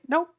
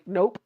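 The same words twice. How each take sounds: First: The final p is barely heard. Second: The final p is popped audibly.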